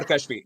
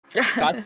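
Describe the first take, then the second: First: Second option for "Kashvi", as a question; alternative pronunciation. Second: First option for saying "Kashvi"; alternative pronunciation. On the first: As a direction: ask whether "Kashvi" is said this other way. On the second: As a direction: offer "Kashvi" as one possible pronunciation. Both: Shown as a demonstration. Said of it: "what's the right pronunciation".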